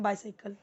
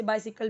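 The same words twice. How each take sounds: First: "sai" like cycle in बाइसाइकिल; Indian English pronunciation. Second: Short i in the middle of बाइसाइकिल; alternative pronunciation. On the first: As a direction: say बाइसाइकिल as "bai-sai-kal". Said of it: "हम क्या बोलते हैं". (बाइसाइकिल में साफ़ "साइ" बोलें) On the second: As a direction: say बाइसाइकिल as "BY-si-kal". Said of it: "कोई इसे बाइसाइकिल भी बोलता है". (बाइसाइकिल को "बाइसिकल" बोलें) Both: Shown as a demonstration.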